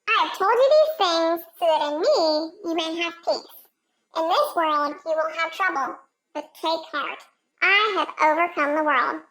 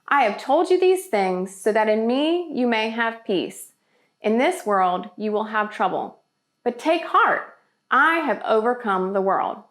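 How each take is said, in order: First: It is read in a very high voice. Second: It is read in a normal voice.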